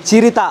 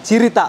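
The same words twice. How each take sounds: Both takes have the same delivery.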